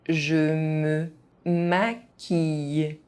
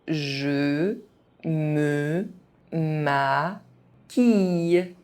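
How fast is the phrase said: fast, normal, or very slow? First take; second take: normal; very slow. First: It is said at an ordinary speaking pace. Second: It is said very slowly, syllable by syllable. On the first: This is the pace learners should use. "at a normal pace" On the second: Each syllable can be followed. "very slowly"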